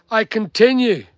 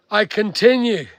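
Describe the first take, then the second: No difference in how they are said.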